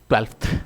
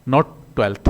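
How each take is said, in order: First: A light f sound comes before the th. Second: No f sound comes before the th. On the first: The speaker calls it right. "इसको हम phonetically ऐसे बोलते हैं ... ये फे हल्का सा बोला जाता है" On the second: The speaker calls it wrong. "Not"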